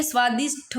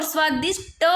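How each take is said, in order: First: स्वादिष्ट ending in aspirated 'ṭho'; correct aspirated ending. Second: स्वादिष्ट ending in unaspirated 'ṭa'; mispronounced final consonant. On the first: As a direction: say स्वादिष्ट as 'svaa-dish-ṭho'. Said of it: "स्वादिष्ट होता है". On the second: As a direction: say स्वादिष्ट as 'svaa-dish-ṭa', no puff. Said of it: "स्वादिष्ट नहीं होता". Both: Shown as a demonstration.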